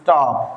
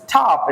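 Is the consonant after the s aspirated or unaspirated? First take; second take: unaspirated; aspirated. First: The consonant after s has no puff of air. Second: The consonant after s has a puff of air. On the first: The speaker calls it right. "It is স্টপ" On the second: The speaker calls it wrong. "This is not স্টপ"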